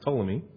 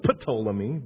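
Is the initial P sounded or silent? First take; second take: silent; sounded. First: The word begins with a silent P. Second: The word begins with a sounded P. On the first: The speaker calls it right. "but it's pronounced Ptolemy" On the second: The speaker calls it wrong. "It looks like Ptolemy"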